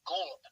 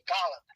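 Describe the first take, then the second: First: The name is said unlike the word 'Gallup'. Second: The name is said like the word 'Gallup'. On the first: This is how people in Western Pennsylvania say it. "where I grew up, they say Golub"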